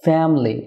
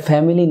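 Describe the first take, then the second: First: "ফ্যামিলি" squeezed to fem-li, middle i dropped; two-syllable family. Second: "ফ্যামিলি" said fe-mi-li with a full middle vowel; three-syllable family. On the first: Teacher models native form for viewers, "ফ্যামিলি" as fem-li. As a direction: say "ফ্যামিলি" as FEM-lee, falling at the end. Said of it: "two syllable হবে". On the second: Teacher shows the form to avoid, "ফ্যামিলি" mispronounced as fe-mi-li. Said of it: "না হয়ে হবে". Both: Shown as a demonstration.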